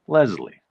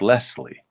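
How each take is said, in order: First: The middle consonant is a buzzing Z sound. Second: The middle consonant is a hissing S sound. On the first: "I definitely would have pronounced it with a Z in the middle" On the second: "it's obviously written with an S, so it's Leslie"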